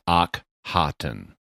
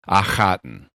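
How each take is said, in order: First: The k and h are said as separate sounds. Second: The kh is one rasping throat sound. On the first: "the doctor is splitting it into two separate consonants" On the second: "In Egyptian, they have huh, and so it would be Akhaten"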